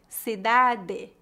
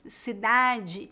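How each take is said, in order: First: It is said with a Paraná accent. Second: It is said with a general Brazilian accent.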